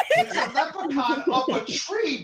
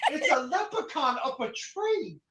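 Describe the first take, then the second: First: Loud and laughing; excited insistence. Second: Said in the usual way. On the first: Acted. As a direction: blurt it out with a laugh. Repeated exclaim.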